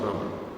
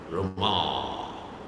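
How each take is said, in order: First: The final vowel is short and soft. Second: The final vowel is long and full. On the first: It names the deity Rama. The speaker calls it right. "It's very soft" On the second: It names the goddess of fortune. The speaker calls it wrong. "But not Rama. It's not Rama. That's not proper"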